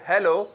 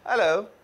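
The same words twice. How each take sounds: First: The opening h sound is pronounced. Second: The opening h sound is dropped. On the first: "ना के" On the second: "यूं बोलेंगे"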